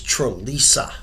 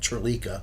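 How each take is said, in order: First: The third syllable starts with an S sound. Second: The third syllable starts with a K sound. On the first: The speaker calls it right. "It's Trelisa" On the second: The speaker calls it wrong. "Everybody always mispronounces the Trelisa name. They call it Trelika"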